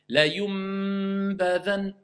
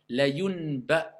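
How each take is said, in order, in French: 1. Un son m net se place avant le b. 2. Un son n s'enchaîne directement avec le b. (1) "on transforme le nun en mime" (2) "même si je veux prononcer le nom"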